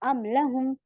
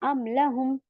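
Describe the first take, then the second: The two takes are said the same way.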